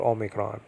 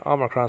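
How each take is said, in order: First: Omicron opening on long "oh"; modern-day pronunciation. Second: Omicron opening on short "ah"; teacher's pronunciation. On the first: Teacher noting what it is called nowadays, modern pronunciation. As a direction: say Omicron as "OH-mih-cron". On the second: Teacher spelling out a Greek word for class, own pronunciation. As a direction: say Omicron as "AH-mih-cron". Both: Shown as a demonstration. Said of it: "Nowadays called Omicron".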